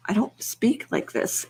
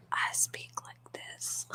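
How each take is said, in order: First: Said in the usual way. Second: Soft, slow, fully whispered; ASMR whisper. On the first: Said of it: "I don't speak like this in A S M R". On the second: Shown as a demonstration. Streamer showing viewers her ASMR voice, whispering.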